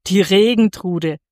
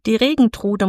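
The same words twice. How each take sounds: First: Hard, scornful echo of a name; firm, hard-edged repeat; hard repetition. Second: Said in the usual way. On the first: A narrator's reading. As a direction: repeat it harshly in disbelief. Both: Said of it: "wiederholte der Bauer hart".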